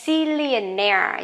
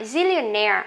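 First: Zillionaire said slowly, stress on -naire; slow model word. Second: Zillionaire at normal speed, stress on -naire; normal speed word. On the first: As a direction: stretch Zillionaire for learners. (đọc chậm Zillionaire) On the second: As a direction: say Zillionaire naturally. (đọc Zillionaire bình thường) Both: Shown as a demonstration. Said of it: "zillionaire có nghĩa là".

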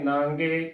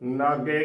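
First: ਨਾਂਗੇ with nasalised aa, ng before e; nasal bindi. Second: ਨਾਗੇ with an oral long aa, no n before g; no nasal. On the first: Teacher giving the correct reading, ਨਾਂਗੇ with nasal. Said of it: "ਬਿੰਦੀ ਨਾਲ ਹੀ". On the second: Teacher showing the congregation's mistake, ਨਾਗੇ without nasal. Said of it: "ਬਿਨਾਂ ਬਿੰਦੀ ਤੋਂ". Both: Shown as a demonstration.

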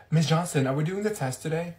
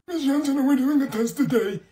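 First: Said in the usual way. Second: Higher, louder, nagging repeat; whiny student voice. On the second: Acted. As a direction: pester the teacher like a whiny kid. Same question repeated, higher and louder.

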